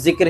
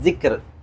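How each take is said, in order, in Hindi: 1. इस शब्द का उर्दू उच्चारण है। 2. इस शब्द का अरबी उच्चारण है। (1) "उर्दू में हम उसको जिक्र ही बोलते हैं" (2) "लेकिन अरबिक में क्या बोलेंगे?"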